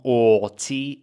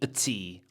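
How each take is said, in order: First: The word 'or' is said in full. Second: The word 'or' is reduced to a weak vowel. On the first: "Not or tea" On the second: "I can literally say a tea"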